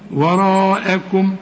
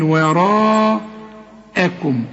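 First: The word is said smoothly as one whole. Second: The word is broken into two separate parts. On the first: "لغاية لما تتعود عليها وتقول وراءكم" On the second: "بافصلها ايه؟ نصين كده"

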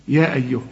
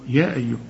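Both takes have the same delivery.

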